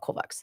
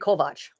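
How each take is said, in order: First: The name ends with a ks sound. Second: The name ends with a ch sound. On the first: This is how other people read the spelling. The speaker calls it wrong. "They call it Kovacs" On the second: This is how the family says the name. The speaker calls it right. "C S in Hungarian is a ch sound"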